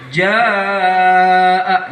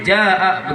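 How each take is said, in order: First: The vowel is held for four or more beats. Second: The vowel is cut short, under four beats. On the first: The speaker calls it right. "Contohnya ada di sini" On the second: The speaker calls it wrong. "Nggak boleh jaa begitu"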